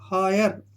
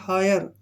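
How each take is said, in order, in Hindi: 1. पहला स्वर 'eye' जैसा बोला जाता है। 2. पहला स्वर 'eye' जैसा बोला जाता है।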